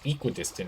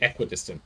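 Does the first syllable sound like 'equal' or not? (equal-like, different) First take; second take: equal-like; different. First: The first syllable sounds like the start of 'equal'. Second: The first syllable does not sound like 'equal'. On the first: "is what it's supposed to be, right? Because it's equal" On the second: "I've heard people say equidistant, though"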